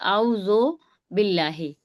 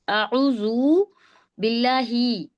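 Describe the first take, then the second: First: The first word ends in an 'o' sound. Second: The first word ends in an 'u' sound. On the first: The speaker calls it wrong. "कोई कह रहा है आउज़ो बिल्लाहि" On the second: The speaker calls it right. "सभी को अऊज़ु बिल्लाहि पढ़िए"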